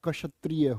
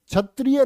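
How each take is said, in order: First: The word begins with a 'ksh' cluster sound. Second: The word begins with a plain 'chh' sound. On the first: The speaker calls it right. "क्षत्रिय होता है" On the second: The speaker calls it wrong. "क्षत्रिय नहीं होता"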